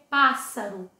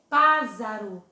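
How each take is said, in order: First: The middle consonant is a hissing s sound. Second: The middle consonant is a buzzing z sound. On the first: The speaker calls it right. "não iria ser pássaro" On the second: The speaker calls it wrong. "se aqui tivesse só um S"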